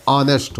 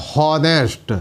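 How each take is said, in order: First: ऑनेस्ट with a silent h, opening straight on the vowel; correct pronunciation. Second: हॉनेस्ट said with a voiced h at the start; wrong pronunciation. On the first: Teacher showing the right reading, silent h. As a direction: drop the h: ऑनेस्ट. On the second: Teacher demonstrating the wrong reading, h sounded. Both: Shown as a demonstration. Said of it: "हॉनेस्ट नहीं होता".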